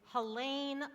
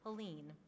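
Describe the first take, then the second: First: The last syllable rhymes with pain. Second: The last syllable does not rhyme with pain. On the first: The speaker calls it right. "it's Helene like pain" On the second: The speaker calls it wrong. "Some people mispronounce Helene's name"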